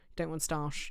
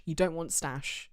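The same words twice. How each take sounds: First: "starch" said with a long ar sound; corrected word. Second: "stash" said with a short a and no r, like stash; "stash" with the a of cat, not "starch"; wrong word. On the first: Correcting herself about risotto rice, now saying "starch" with a long ah. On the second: Correcting herself about risotto rice, first saying "stash" with a short a. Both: Shown as a demonstration.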